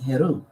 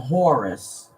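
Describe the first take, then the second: First: The name is said with an e-sound, Heru. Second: The name is said with an o-sound, Horus. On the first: This is the original pronunciation. The speaker calls it right. "but the pronunciation would be Heru" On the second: This is the common name people use. The speaker calls it wrong. "which they call them Horus"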